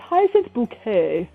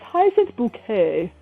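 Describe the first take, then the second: First: The surname sounds like the word bouquet. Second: The surname sounds like the word bouquet.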